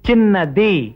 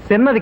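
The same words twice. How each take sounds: First: The first consonant sounds like ch. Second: The first consonant sounds like s. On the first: The speaker calls it right. "చాచా జజ్జాలో చా, యారాలావాశేషాలో సా కాదు" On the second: The speaker calls it wrong. "కాదు"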